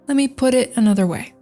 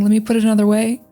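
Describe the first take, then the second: First: The phrase is said slowly, words kept apart. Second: The phrase is said quickly, words run together. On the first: "I'll say, ... I will try to slow it down" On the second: "instead of saying"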